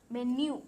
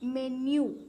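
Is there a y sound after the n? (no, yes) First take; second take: yes; yes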